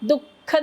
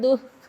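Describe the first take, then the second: First: The visarga sound is not half pronounced. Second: The visarga sound is only half pronounced. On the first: The speaker calls it wrong. "दुःख नाही हा" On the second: The speaker calls it right. "आपण दुःख म्हणणार आहोत"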